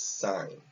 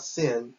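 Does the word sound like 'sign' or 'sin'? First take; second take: sign; sin. First: The word is said like 'sign'. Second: The word is said like 'sin'. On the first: The speaker calls it right. "it's sign" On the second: The speaker calls it wrong. "It's not sin"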